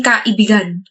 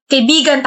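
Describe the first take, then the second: First: "kaibigan" split as ka, ibigan; split-word pun. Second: Said in the usual way. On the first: Acted. Suitor turning friend into sweetheart, "kaibigan" split as ka-ibigan. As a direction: break "kaibigan" after ka to make ibigan. Wordplay, friend turned into lover.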